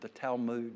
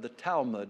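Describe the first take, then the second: First: The word has a Hebrew-style pronunciation. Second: The word has an ordinary English pronunciation.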